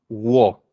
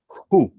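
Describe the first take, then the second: First: It starts with a w sound and short o. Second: It starts with an h sound and long oo. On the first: The speaker calls it wrong. "no se dice wo" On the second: The speaker calls it right. "pueden decir J-U"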